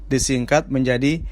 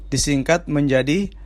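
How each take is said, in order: The two takes are said the same way.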